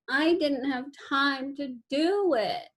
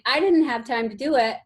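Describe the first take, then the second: First: It is said in a whiny, crying voice. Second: It is said in a plain, normal voice.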